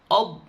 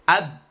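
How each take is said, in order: First: The vowel is rounded, like an o. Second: The vowel is open and thin, like a. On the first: The speaker calls it wrong. "O, ob misalkan gitu. ... ob nggak boleh" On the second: The speaker calls it right. "Ab ditipiskan benar-benar tipis"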